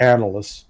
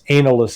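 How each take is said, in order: First: The word is pronounced in its ordinary way. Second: The word is pronounced in a mocking, distorted way. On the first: It is the normal, neutral term. "as opposed to analysts" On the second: It is meant as an insult. "they would call us analysts"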